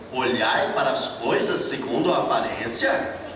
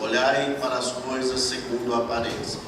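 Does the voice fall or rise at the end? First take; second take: rises; falls. First: It is said as a question, rising at the end. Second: It is said as a statement, falling at the end. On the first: It questions judging things by appearances. The speaker calls it right. "Existe um ponto ali de interrogação" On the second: It is a command to look at appearances. The speaker calls it wrong. "Vocês leram assim, ... Não é para ler assim"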